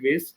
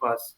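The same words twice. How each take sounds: First: Vase is said with an American pronunciation. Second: Vase is said with a British pronunciation. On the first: "in American English we called it vase" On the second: "in British English we called it vase"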